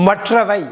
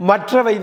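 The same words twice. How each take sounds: The two takes are said the same way.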